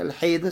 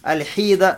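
First: The vowel after the h is an a sound. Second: The vowel after the h is an i sound. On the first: "с чем? С фатхой" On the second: "с кесрой"

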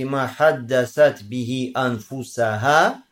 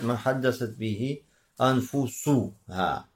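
First: The last word is said with an 'a' vowel: anfusaha. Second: The last word is said with a 'u' vowel: anfusuha. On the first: The community speaks to its own souls. "то есть фатхай анфусаха" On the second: The soul speaks to the person. "а можно сказать"

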